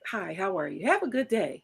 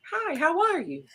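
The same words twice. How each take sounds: First: Softer, gentle friendly greeting; gentle hello. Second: Said in the usual way. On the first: Shown as a demonstration. Showing her friend how she greets men, soft and gentle. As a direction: greet a stranger gently, in passing. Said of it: "gently putting my hand on your back".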